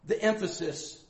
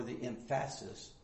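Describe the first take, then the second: First: Said in the usual way. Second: "emphasis" as em-FASS-is, stress moved off the first syllable; misplaced stress. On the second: Shown as a demonstration. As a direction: playfully mispronounce "emphasis" as em-FASS-is. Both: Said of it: "is on the last syllable".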